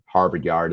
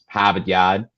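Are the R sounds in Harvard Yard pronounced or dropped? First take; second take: pronounced; dropped. First: The R sounds are pronounced. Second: The R sounds are dropped.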